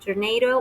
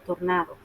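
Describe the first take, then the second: First: It is pronounced with English sounds. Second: It is pronounced with Spanish sounds. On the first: "the word in English" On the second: "the word in Spanish"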